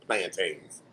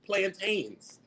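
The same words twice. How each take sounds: First: Plantains said low and soft, flat and unimpressed; deadpan repeat. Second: Plantains said softly, the way outsiders say it, PLAN-taynz; mock the outsider's Plantains, quiet and precise; imitating others' pronunciation. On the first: Retold or imitated. To her viewers, her own reply to them, low deadpan. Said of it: "I'd be like". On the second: To viewers, mocking how others say it, soft mimicry. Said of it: "when they go".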